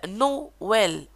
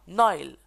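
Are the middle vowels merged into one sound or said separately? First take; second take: separate; merged. First: The two vowels are said as separate sounds. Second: The two vowels are merged into one sound. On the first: The speaker calls it right. "le tréma sert à prononcer séparément les voyelles" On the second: The speaker calls it wrong. "et non"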